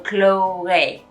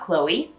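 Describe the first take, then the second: First: The final vowel sounds like 'ay'. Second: The final vowel sounds like 'ee'. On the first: "they become more of an A sound" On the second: "words that we say in English a lot"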